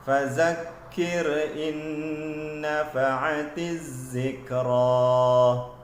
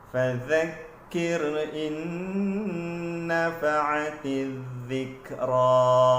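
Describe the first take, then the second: First: The consonant is a plain buzzing 'z' sound. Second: The consonant is a 'th' sound, tongue tip out. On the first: The speaker calls it wrong. "bacaan yang salah ... tidak mengeluarkan sedikit hujung lidah" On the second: The speaker calls it right. "bacaan yang lebih tepat ... perlu dikeluarkan hujung lidah eh, sedikit"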